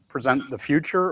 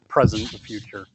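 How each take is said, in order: First: The stress falls on the second syllable of present. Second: The stress falls on the first syllable of present. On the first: Give a presentation about the future. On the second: Bring the future into the present.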